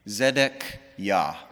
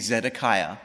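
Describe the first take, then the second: First: The name has a Hebrew-style pronunciation. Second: The name has an ordinary English pronunciation.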